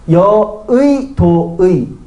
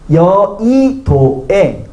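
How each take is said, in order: First: Both the second and last syllables use 'ui'. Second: The second syllable uses 'ui', the last 'e'. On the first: "의도 되고" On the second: "애도 되고"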